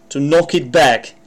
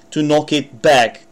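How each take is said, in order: Both takes have the same delivery.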